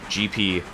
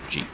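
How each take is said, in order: First: Two separate letters are said slowly and clearly. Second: The letters run together quickly into one syllable.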